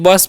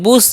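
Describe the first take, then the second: First: The word is said like 'bus'. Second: The word is said like 'boosh'. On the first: The speaker calls it right. "इसे हम बस" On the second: The speaker calls it wrong. "बुश नहीं"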